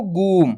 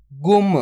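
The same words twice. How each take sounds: First: गुम stretched into a long गूम; drawn-out vowel. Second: गुम with a brief, unstretched u; short u. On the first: Teacher shows what not to do, गुम with stretched vowel. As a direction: drag out the u in गुम before the म. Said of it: "खींच के नहीं पढ़ना". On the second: Teacher models the word for students, गुम with short u. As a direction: say गुम quickly, closing straight onto म. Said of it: "जल्दी से उच्चारण कर देंगे". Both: Shown as a demonstration.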